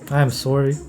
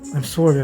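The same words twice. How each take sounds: First: The apology sounds cool and self-assured. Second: The apology sounds timid and flustered. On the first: "like with high status" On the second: "this is a low thing"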